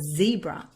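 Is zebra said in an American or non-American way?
American. It is said in an American way.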